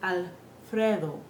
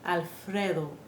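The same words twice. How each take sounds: First: The vowel is a short, pure 'eh' sound. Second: The vowel is a short, pure 'eh' sound.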